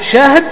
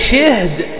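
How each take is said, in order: First: Open a after sh, no vowel after h. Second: Vowel i after sh, no vowel after h. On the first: "بسكون الهاء" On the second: "بسكون الهاء وكسر الأول"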